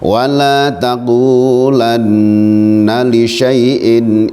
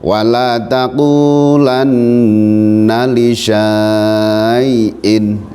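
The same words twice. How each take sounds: First: The vowel after sh is short. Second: The vowel after sh is long. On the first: The speaker calls it right. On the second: The speaker calls it wrong.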